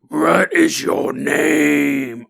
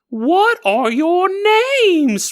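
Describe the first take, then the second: First: It is said in a low bear voice. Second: It is said in a high voice.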